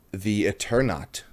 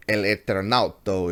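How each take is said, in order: First: Said in the usual way. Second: Bad Spanish accent. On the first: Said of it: "terrible Spanish accent". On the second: Shown as a demonstration. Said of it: "I'm sorry for my terrible, uh, terrible Spanish accent".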